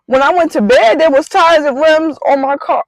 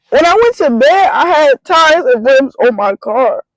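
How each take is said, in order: First: High, stunned retelling of the night before; reliving the shock of finding the car bare; disbelief. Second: High and slowed, each word pressed in disbelief. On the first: To her fiance, repeating it in high disbelief. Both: Retold or imitated. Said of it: "in disbelief".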